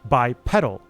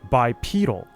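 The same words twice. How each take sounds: First: The first E is short, as in pedal. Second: The first E is long, as in bead. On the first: This is the American pronunciation. "U S English, ... the short E, like pedal" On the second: This is the British pronunciation. "U K English, ... the long E, like bead"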